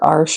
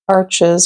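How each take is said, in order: First: The word is said with French pronunciation. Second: The word is said with English pronunciation.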